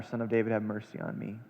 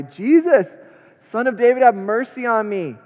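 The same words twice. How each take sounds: First: Low, soft desperate pleading; quiet intense plea, much softer; hushed plea. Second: High, loud desperate cry; pleading shout, much higher and louder. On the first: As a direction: beg under your breath. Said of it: "he cried out all the more". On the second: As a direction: call out to Jesus across the crowd. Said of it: "he began to cry out". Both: Acted.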